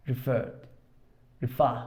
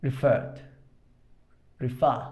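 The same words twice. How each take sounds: The two takes are said the same way.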